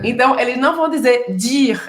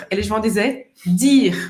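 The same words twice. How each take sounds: First: Dire with a Brazilian dj sound; wrong Brazilian dji. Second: Dire with a clean French D; correct French dire. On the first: Teacher to students showing the mistake to avoid, mock wrong djire. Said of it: "algumas pessoas falam dire". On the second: Teacher to students showing the correct dire. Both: Shown as a demonstration.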